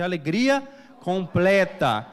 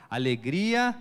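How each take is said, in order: First: Louder, slow "completa" drawn out; loud call-out. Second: Said in the usual way. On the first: Shown as a demonstration. Preacher leading the church to shout alegria, loudly. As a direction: rouse the crowd to shout it back. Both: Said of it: "não, fala aí, gente".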